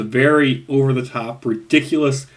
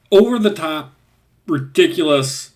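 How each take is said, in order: First: Said in the usual way. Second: "over-the-top" punched higher and louder, then "ridiculous" falling; emphatic over-the-top. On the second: Shown as a demonstration. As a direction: stress "over-the-top" high and loud, let "ridiculous" drop. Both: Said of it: "that's the best way to describe".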